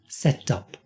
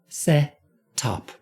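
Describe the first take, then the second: First: The phrase is said more quickly. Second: The phrase is said very slowly. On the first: "a little quicker" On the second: "let me do this very slowly"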